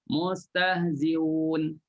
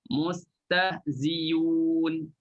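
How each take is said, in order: First: The glottal sound is softened between the vowels. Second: A y sound replaces the glottal sound. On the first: "Kita tashilkan Hamzah" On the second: "tukarkan Hamzah menjadi huruf Ya"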